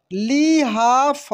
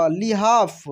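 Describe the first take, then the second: First: लिहाफ slowly as li, haa, fa; syllable by syllable. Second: Said in the usual way. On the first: Shown as a demonstration. Teacher reading for learners, लिहाफ slowly syllable by syllable. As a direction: stretch out each syllable of लिहाफ. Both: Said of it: "अब direct पढ़ते हैं".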